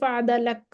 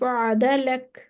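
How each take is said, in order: First: The final k is clipped with no breath. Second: The final k releases with audible breath. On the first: The speaker calls it wrong. "इसको ऐसे नहीं पढ़ेंगे फादा लक, ऐसे नहीं पढ़ेंगे" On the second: The speaker calls it right. "सांस रुक चलती जाएगी, आवाज रुकेगी।"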